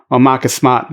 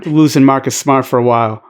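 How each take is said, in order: First: Boston accent, Marcus Smart as Mahcus Smaht; Boston accent dropping the r in Smart. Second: Said in the usual way. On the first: Shown as a demonstration. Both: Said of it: "My Boston accent didn't really show".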